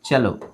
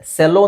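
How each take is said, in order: First: The word begins with a ch sound. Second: The word begins with an s sound. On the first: The speaker calls it right. "ಚೆಲೋ ಅಂತ ಹೇಳ್ಬೇಕು" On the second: The speaker calls it wrong. "ಸೆಲ್ಲೋ ಅಂತ ಅನ್ಸ್ಬೋದು"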